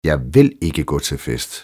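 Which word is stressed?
vil. The stress falls on the word vil. The speaker firmly refuses to be persuaded. "Du får mig aldrig afsted"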